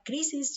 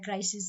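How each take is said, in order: First: The word is pronounced as transliterated Greek. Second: The word is pronounced as English. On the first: "así la estaríamos con la transliteración pronunciando" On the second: "yo diría crisis en inglés"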